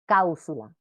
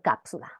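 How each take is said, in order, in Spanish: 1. El sonido p se cambia por una vocal. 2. El sonido p se pronuncia claramente. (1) "o su vocalización" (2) "Por cápsula"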